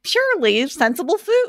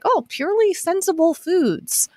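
First: Higher, sing-song take on "Purely sensible food."; higher Jason voice. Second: Lightly done Midwestern man voice, a bit higher; a hint of a folksy Midwestern guy reading a tagline; Jason voice. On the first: Retold or imitated. Host showing her co-host how his voice really goes, higher and sing-song. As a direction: pitch it up like a cheery tagline. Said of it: "you have a little bit of a different voice". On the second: Host imitating her co-host's Midwestern voice, lightly done. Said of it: "your classic Jason voice".

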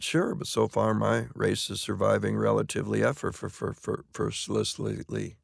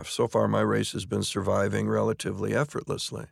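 First: Tongue trips, stuck repeating "for, for, for" before "effortlessly"; stumbling over the line. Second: Said in the usual way. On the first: Shown as a demonstration. Actor on stage trips over a tongue-twister line, stammering. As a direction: fumble the word "effortlessly", stammering on "for". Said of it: "It just wouldn't". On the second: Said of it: "one night I walked out and said".

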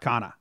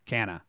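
First: Canha said as KAH-nuh; ah pronunciation. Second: Canha said as KAN-uh; short-a pronunciation. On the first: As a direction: say Canha with a broad "ah" first vowel. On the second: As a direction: say Canha with the vowel of "can". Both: Shown as a demonstration. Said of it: "I don't know how to say it".

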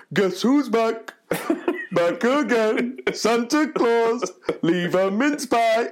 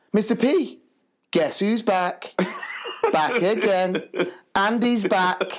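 First: Slow, high, chanted Santa delivery; hammed-up Santa rapping in slow motion, half laughing; Father Christmas voice. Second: High, drawn-out playground announcement; higher, chanting schoolboy voice; excited little lad. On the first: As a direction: chant it out in a jolly, drawn-out Santa voice. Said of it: "he turned around and went". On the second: Retold or imitated. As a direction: imitate a boy proudly announcing news. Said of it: "this little lad runs to me".

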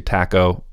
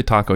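First: "taco" with a short a, "TACK-o"; mispronounced Spanish. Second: "taco" with an open ah, "TAH-co"; correct Spanish pronunciation. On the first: Host showing a harmless Spanish slip, "TACK-o". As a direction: say "taco" with the a of "cat". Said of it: "you say taco". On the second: Host showing how Spanish should sound, "TAH-co". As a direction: say "taco" with a Spanish-style first vowel. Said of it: "You're supposed to say taco". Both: Shown as a demonstration.

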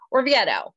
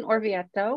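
First: Orvieto said the American way; plain Californian take on Orvieto; Californian accent. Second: Orvieto said with an Italian flourish; lightly put-on Italian pronunciation of Orvieto; fancy Italian accent. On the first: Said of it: "how we would say it in California". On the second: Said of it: "That's my fancy Italian accent". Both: Shown as a demonstration.

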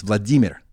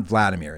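First: Vladimir said vla-DEE-mir, second syllable stressed; Russian stress. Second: Vladimir said VLAD-uh-meer, English style; stress on first syllable. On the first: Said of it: "It's Vladimir". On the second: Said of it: "It's not Vladimir". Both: Shown as a demonstration.

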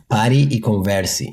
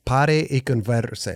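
First: "Pare e converse" said slowly, light Portuguese r; slow native Portuguese "Pare e converse"; Portuguese phrase. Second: "Pare e converse" with a hard rolled R; heavy rolled r. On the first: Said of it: "How do you say stop and chat?". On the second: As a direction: roll the R in "Pare" too hard. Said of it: "you go hard on the R". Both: Shown as a demonstration.

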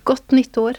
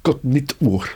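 First: "Gott nytt år" in Norwegian, stress on "nytt", "år" as long "o"; Norwegian New Year greeting. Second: "Gott nytt år" attempted, "Gott" punched with a hard k; careful learner's try at "Gott nytt år"; learner trying Norwegian. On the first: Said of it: "How do you say that in Norwegian?". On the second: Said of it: "that's a good effort". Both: Shown as a demonstration.

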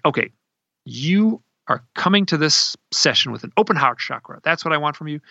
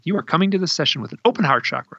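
First: Retold stern order, words set apart; stern, tough. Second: Retold stern order, higher pitched, run together; stern, tough. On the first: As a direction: imitate someone firmly laying down terms. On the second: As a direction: imitate a tough instruction without pausing. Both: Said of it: "stern. She was tough".

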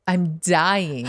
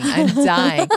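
First: Said in the usual way. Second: Dying, pitched up and louder; higher mock panic. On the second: Parent watching kid fail, acted panic.

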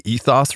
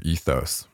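First: "ethos" ending in an open "oss"; short-o ethos. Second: "ethos" ending in a long "ohss". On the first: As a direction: say "ethos" as EE-thoss, rhyming with "moss". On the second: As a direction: say "ethos" as EE-thohss, second vowel as in "go". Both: Shown as a demonstration. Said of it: "do you say ethos or ethos".

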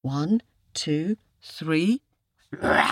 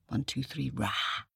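First: Measured count into a loud roar; full roar. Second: Quiet practice roar. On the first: Storyteller leads listeners in the tiger's roar, loud. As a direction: count clearly, then let rip with a long rah. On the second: Storyteller shows listeners the roar, softly. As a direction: keep it down, a tiny roar. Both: Shown as a demonstration.

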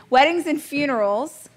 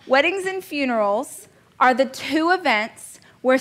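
First: Trying to keep a straight face; stifling a laugh. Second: Said in the usual way. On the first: Real, not acted. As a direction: giggle breaking through the words. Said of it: "I can't even say it with a straight face". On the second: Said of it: "can't even say it with a straight face".

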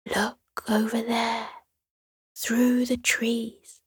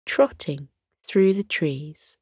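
First: Soft unvoiced whisper, pointing something out; breathy secret whisper, slow on through the trees. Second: Said in the usual way. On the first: A narrator's reading. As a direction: hush it so the creature won't hear. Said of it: "whispered to Sierra".

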